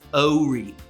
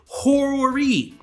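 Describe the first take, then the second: First: The word begins without an H sound. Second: The word begins with an H sound. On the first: The speaker is a local. The speaker calls it right. "the way a local says it, it's actually pronounced Ori. The H is silent" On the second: The speaker is not from the area. The speaker calls it wrong. "people who pronounce it horror-y"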